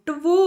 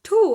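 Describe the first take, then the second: First: A W-like glide follows the vowel sound. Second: No W sound is heard in the word. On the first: This is how it was said originally. "ಟುವು ಅಂತಿದ್ರು ಅವಾಗ ಅಂತಿದ್ದೇ ಹಂಗೆ original ಆಗಿ" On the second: This is how it is said today. "ಇಲ್ಲಿ ಟು ಟು ಅಂತೀವಿ"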